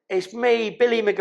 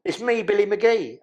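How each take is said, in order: First: Billy's higher voice. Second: Lightly voiced inmate at the door; Billy's voice again. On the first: Retold or imitated. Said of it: "I've got to say it". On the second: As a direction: repeat Billy's line, slightly calmer. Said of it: "I've got to say it because it don't make no sense".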